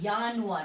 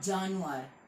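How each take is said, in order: First: The word begins with a Y sound. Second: The word begins with a J sound. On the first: The speaker calls it right. "तो यह होगा यानुआर" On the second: The speaker calls it wrong. "Not जानुआर"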